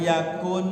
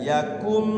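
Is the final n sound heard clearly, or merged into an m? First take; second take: heard; merged. First: The n sound is pronounced clearly. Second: The n sound merges into an m sound. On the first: The speaker calls it wrong. "jangan yakun" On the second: The speaker calls it right. "langsung masuk kafnya kepada mim"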